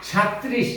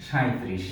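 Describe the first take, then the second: First: সাঁইত্রিশ as "shat-trish", no i glide; wrong form without glide. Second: সাঁইত্রিশ as "sha-i-trish", i glide; correct glide form. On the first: Teacher quizzing learners with faulty সাঁইত্রিশ, shat-trish without glide. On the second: Teacher answering with the right সাঁইত্রিশ, shai-trish with glide. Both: Shown as a demonstration. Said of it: "সঠিক উচ্চারণটি হবে".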